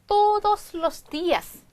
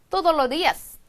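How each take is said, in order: First: Every s sound is clearly pronounced. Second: The s sounds are dropped in quick speech.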